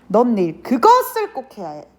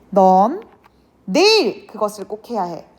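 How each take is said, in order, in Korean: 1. 강세는 '그것을'이라는 단어에 있어요. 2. 강세는 '내일'이라는 단어에 있어요. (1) "꼭 그것을 해야 한다는 의미를 강조하는 거겠죠" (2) "바로 내일이야 라는 의미가 되겠고"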